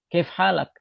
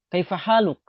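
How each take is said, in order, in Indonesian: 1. Bentuk kolokial yang dipendekkan dengan vokal yang dihilangkan dan akhiran -ak. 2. Bentuk standar lengkap dengan vokal akhir dan akhiran -uk. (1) "Sedangkan dalam bahasa Amiyah" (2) "Kalau kita bertanya kabar"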